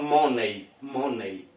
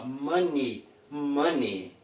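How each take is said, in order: First: "money" said as "MOH-nay"; mispronounced money. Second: "money" said as "MUH-nee"; correct money pronunciation. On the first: Teacher mimicking how Brazilians wrongly say it, "money" as "MOH-nay". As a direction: say "money" with a round O and an -ay ending. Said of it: "fala de maneira errada". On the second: Teacher modelling the correct word for Brazilian learners, "money" as "MUH-nee". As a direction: say "money" with a short UH and an -ee ending. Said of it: "a gente pronuncia assim". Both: Shown as a demonstration.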